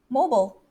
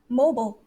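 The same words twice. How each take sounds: First: It is said with an American accent. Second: It is said with an American accent.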